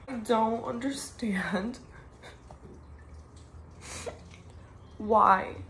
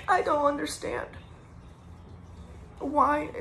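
First: Slow, broken whisper through tears; whispering through tears over her friend's death; tearful whisper. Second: Tearful. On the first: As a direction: barely get the words out, crying. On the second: Grieving, voice raised and strained. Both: Real, not acted.

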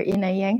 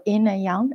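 First: YANG with a flat English "a", as in "hang"; English pronunciation. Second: YANG with an open "ah" vowel, like "yahng"; Chinese-style pronunciation. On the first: Teacher correcting to the familiar term, "yang" in English pronunciation. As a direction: say "yang" the English way, rhyming with "sang". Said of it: "pronounce it in English". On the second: Tai chi teacher naming the stance, "yang" in Chinese-style pronunciation. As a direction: say "yang" the Chinese way, rhyming with "song". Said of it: "how you pronoun". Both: Shown as a demonstration.

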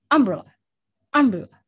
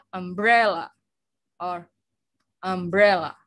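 First: "umbrella" as UM-brella, front punched loud; wrongly stressed. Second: "umbrella" as um-BRE-lla, middle syllable stretched; correct stress. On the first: Teacher shows wrong stress to class, UM-brella with crushed ending. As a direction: hit UM and swallow the rest of "umbrella". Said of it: "No, oke? Yang benar adalah". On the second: Teacher gives class the right form, "umbrella" stressed on BRE. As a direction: clearly press BRE in "umbrella". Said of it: "Yang benar adalah". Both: Shown as a demonstration.

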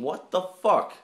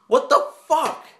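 First: Said in the usual way. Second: Much higher and louder exclamation; high, loud incredulous outburst; outraged disbelief. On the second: Real, not acted. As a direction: cry it out in disbelief. Baffled that she's not barking.

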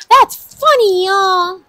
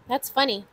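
First: Loud, high-pitched whoop to the crowd; excited exclamation. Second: Said in the usual way. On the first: Real, not acted. Host tells viewers the matching totals are funny, excited exclamation. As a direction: burst out much higher and louder, playfully.

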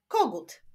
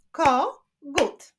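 First: Said in the usual way. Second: "kogut" split as ko, gut with a pause; two separate beats on "kogut"; syllable by syllable. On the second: Shown as a demonstration. Teacher clapping syllables for pupils, "kogut" split in two. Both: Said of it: "Wyklaszczmy sylaby w tych wyrazach".

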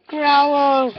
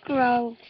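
First: Louder, growled "Growl" with a falling end; a play growl to make the dog growl back; mock growl. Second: Said in the usual way. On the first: Shown as a demonstration. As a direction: growl the word at the dog to set him off. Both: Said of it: "I can make him growl, watch".

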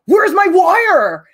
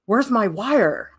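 First: Loud, high, drawn-out angry demand; agitated mock yell. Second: Slow, mock-puzzled demand at normal volume; mildly agitated imitation. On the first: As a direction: imitate a classmate throwing a tantrum. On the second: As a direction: imitate a classmate just starting to fret. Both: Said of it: "getting more agitated".

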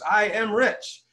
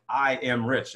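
First: Higher, drawn-out mock group chant; crowd reciting affirmation. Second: Said in the usual way. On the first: Conference crowd repeats the affirmation on cue, mock chanting. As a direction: imitate a crowd slowly intoning it. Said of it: "Everybody goes". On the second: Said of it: "let's use an affirmation like".

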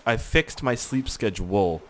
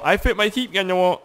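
First: Slow, deliberate "fixed my sleep schedule"; measured retry, every word separated; careful correction. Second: Mock-mangled "sleep schedule", high and slurred; goofy tongue-tied mangling; garbled words. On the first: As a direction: say each word carefully after fumbling it. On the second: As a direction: trip over "sleep schedule" in a silly high voice. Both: Real, not acted. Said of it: "Come on, English".

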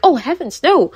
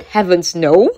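First: Higher, prim and scandalized, oh heavens no; shocked ladylike gasp. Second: Said in the usual way. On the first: Retold or imitated. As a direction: clutch your pearls at Oh, heavens. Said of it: "She's like". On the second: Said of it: "He now said".

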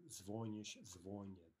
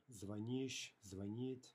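First: Звонишь and звонит with stress on the first syllable, ZVOnish, ZVOnit; shifting stress. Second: Звонишь and звонит with stress on the last syllable, zvaNISH, zvaNIT; end stress. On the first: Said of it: "treat звонить as a shifting stress verb". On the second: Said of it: "звонить is an in-stressed, um, E verb". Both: Shown as a demonstration.

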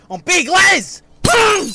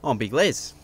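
First: Much higher, much louder roar of his own name; psyched-up scream. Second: Said in the usual way. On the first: Acted. Les psyching himself up at the mirror, screaming. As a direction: scream it to pump yourself up. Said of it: "screaming and punching mirrors". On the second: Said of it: "I'm Big fucking Les".

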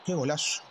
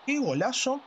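First: Said in the usual way. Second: Higher, thrilled goal cry; excited goal commentary. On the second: Acted. Goal reaction, excited take.

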